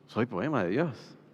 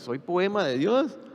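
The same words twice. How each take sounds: First: It is said as a statement, falling. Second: It is said as a question, rising.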